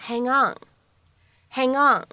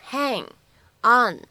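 First: "hang on" run together as one word; natural linking. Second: "hang" and "on" said separately, a small gap between; unlinked words. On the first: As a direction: link the end of "hang" straight into "on". (“hang on”自然连读，中间不断开) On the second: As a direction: say "hang", pause, then "on". (“hang”和“on”分开读，不连读) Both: Shown as a demonstration. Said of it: "咱们可以自然的带一个连读".

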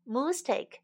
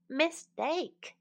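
First: MISTAKE said as "moose-take"; moose take pun. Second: Said in the usual way. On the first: Shown as a demonstration. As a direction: put an oo in the first syllable of MISTAKE, like "moose". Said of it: "把mistake换成了moose take".

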